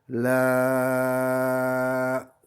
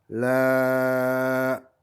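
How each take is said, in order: First: The vowel is held for six counts. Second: The vowel is held for four counts. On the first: "ça fait une durée six" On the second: "c'est une durée quatre"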